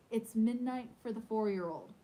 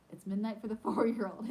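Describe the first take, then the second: First: Said in the usual way. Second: Laughing through the line. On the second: Real, not acted. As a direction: let a laugh break in mid-line.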